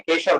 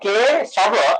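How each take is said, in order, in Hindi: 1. यह एक जुड़े हुए शब्द की तरह बोला जाता है। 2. यह दो अलग हिस्सों में बोला जाता है। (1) "केशव नहीं है" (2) "बांग्ला में के शव मतलब दो अलग है"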